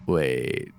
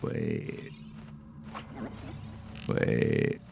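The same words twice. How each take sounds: First: Said in the usual way. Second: Breathy, unvoiced "Wait."; a puzzled whisper of "Wait.". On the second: Real, not acted.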